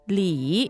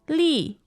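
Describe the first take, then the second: First: The syllable is said with the third tone. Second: The syllable is said with the fourth tone. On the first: It is the surname. "Third tone" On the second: It is the given name. "Fourth tone"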